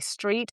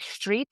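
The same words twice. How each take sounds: First: The first sound is a plain s. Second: The first sound is close to sh.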